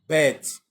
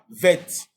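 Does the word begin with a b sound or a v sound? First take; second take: b sound; v sound. First: It begins with a hard b sound. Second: It begins with a soft v sound. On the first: The letter is written with a dot. "le point est si bête, on lira ça comment? Bête" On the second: The letter is written without a dot. "lorsque il n'y a pas le point, on lira ça vête"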